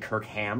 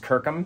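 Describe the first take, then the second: First: The last syllable is a full 'ham'. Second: The last syllable is reduced, not a full 'ham'. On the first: This is how other people say it. The speaker calls it wrong. "people call me Kirkham because it's H-A-M at the end" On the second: This is the owner's own pronunciation. The speaker calls it right. "My last name's"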